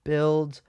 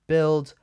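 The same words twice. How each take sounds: The two takes are said the same way.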